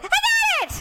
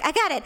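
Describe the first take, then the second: First: Very high exasperated film-character yell; Jenny. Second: Said in the usual way. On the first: Retold or imitated. Bride in the film insisting she's managing, shrieking high. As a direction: shriek it, far higher than normal.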